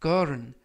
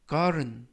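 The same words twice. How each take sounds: First: Garden with the T softened to a light r-like flap; teacher's slow demo of garden with a flapped T. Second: Garden with the T softened to a light r-like flap; flapped T. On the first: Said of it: "트가 아니라 르". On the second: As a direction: say garden as "garen". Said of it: "garden이라고 발음하시면 좋겠고요". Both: Shown as a demonstration.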